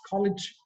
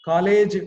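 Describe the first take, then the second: First: Neat, quick-ending "college"; corrected pronunciation. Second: "College" stretched slowly, both syllables full; drawn-out, heavy "College"; wrong pronunciation. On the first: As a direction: say "college" with a short rounded O. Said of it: "It is college". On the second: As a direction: say "College" slow and loud with a long first vowel. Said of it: "College is wrong". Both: Shown as a demonstration.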